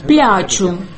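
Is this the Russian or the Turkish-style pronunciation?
Turkish. It is said the way Turkish speakers say it.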